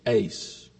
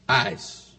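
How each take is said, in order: First: The word is pronounced like 'ace'. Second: The word is not pronounced like 'ace'. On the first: This is how most people pronounce it. "Most, I'll admit, pronounce it ace" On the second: This is the speaker's own pronunciation. "I know how some of you say it, but I say it this way"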